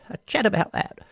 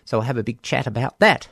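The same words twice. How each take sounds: First: Put-on playful English accent, pitched higher. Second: Said in the usual way. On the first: Host repeating a slogan, in an English accent. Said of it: "channeling English accents".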